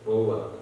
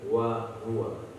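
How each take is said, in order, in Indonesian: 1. Diucapkan cepat tanpa penekanan yang jelas. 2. Diucapkan pelan dengan penekanan yang jelas. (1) "Kalau antum baca cepat jadi" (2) "Berikan tumpuan yang jelas"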